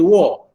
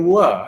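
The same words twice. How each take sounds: First: The wa is said thick and heavy. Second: The wa is said thin and light. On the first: The speaker calls it wrong. "Jangan bunyi wa" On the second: The speaker calls it right. "kekalkan dengan bacaan tafkik iaitu nipisnya"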